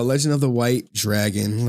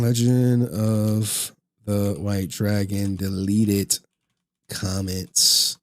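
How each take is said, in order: First: Said in the usual way. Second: Slow, low, drawn-out words; absent-minded, low and stretched out; slow dictation. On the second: Real, not acted. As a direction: sound out each word as if typing it. Saying a title while entering it.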